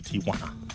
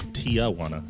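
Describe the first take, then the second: First: The name is said with a Spanish-like pronunciation. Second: The name is said with an anglicized American pronunciation.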